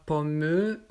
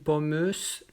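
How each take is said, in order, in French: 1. Après pomm, on prononce une voyelle finale. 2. Une voyelle finale et le son s se prononcent. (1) "On ne dit pas pommeux" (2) "ou pommeuse"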